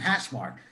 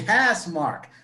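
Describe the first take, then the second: First: It is said with a Boston-area accent. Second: It is said with a neutral accent. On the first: The speaker calls it wrong. "I've been saying it wrong the whole time. I've been saying hash mark" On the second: The speaker calls it right. "It's actually hash mark"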